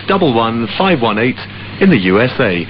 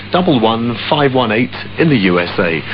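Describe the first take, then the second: No difference in how they are said.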